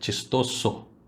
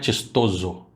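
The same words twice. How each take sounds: First: The middle consonant is a hissing s sound. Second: The middle consonant is a buzzing z sound. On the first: The speaker calls it right. "é chistoso" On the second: The speaker calls it wrong. "não é chistoso"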